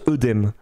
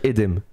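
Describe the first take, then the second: First: The first vowel sounds like 'eu'. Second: The first vowel sounds like 'é'. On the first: This is the everyday modern pronunciation. "maintenant, couramment, on prononce œdème dans le langage courant" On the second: This is the traditional, strictly phonetic pronunciation. "si on est strictement et rigoureusement phonétique, on devrait dire édème"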